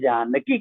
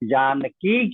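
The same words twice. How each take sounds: First: The final vowel is cut short. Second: The final vowel is held long.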